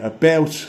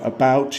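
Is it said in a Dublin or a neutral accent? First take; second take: Dublin; neutral. First: It is said in a Dublin accent. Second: It is said in a neutral accent.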